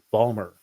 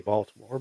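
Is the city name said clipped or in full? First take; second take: clipped; full. First: The city name is said in clipped form. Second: The city name is said in full. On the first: This is how locals say it. "but it is Balmer" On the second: This is how an outsider says it. "I say Baltimore"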